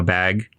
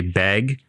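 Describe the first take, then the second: First: Said in the usual way. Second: "bag" with an E vowel. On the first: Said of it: "with an E instead of". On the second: Shown as a demonstration. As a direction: say "bag" so it leans toward "beg". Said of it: "we say bag with an E".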